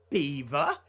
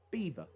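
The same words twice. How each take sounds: First: "Beaver" dipping, then rising at the end; questioning BEAVER. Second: Said in the usual way. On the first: Shown as a demonstration. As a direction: say "Beaver" as if asking. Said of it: "puts it up at the end". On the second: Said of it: "recorded every word normal".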